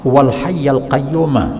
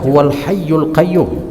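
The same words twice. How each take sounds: First: The words end with an 'a' vowel. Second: The words end with a 'u' vowel. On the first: The speaker calls it right. "yang paling tepat dibaca dengan fathah" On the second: The speaker calls it wrong. "baris dhammah"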